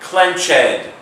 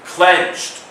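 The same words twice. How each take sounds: First: The word is said as two syllables. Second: The word is said as one syllable. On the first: The speaker calls it wrong. "not clenched" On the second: The speaker calls it right. "Note the silent E"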